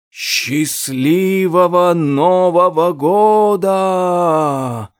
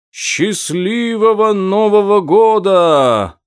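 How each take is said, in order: First: Slow, drawn-out rustling voice. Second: High, loud, drawn-out shout. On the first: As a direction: let it rustle out like dry leaves. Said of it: "прошелестел голос Саван де Саркофага". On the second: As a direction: call it out from far below. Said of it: "прокричал голос далеко внизу". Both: A narrator's reading.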